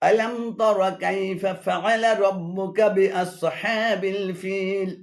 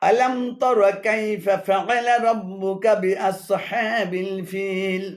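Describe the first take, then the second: Both takes have the same delivery.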